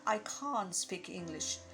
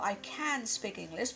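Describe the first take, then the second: First: It is said in a British accent. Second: It is said in an American accent.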